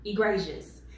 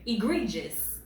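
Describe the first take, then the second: First: "Egregious" tried as ih-GRAY-zhus; trial pronunciation. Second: "Egregious" tried as ih-GREE-jus; alternative pronunciation. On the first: Reader testing a hard word, trial pronunciation of "Egregious" with GRAY. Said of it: "Hopefully I said that correctly". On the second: Reader checking a hard word, alternative pronunciation of "Egregious" with GREE. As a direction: test "Egregious" with a long EE in GREE. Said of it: "Is it egregious?". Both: Shown as a demonstration.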